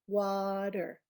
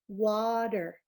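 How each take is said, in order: No difference in how they are said.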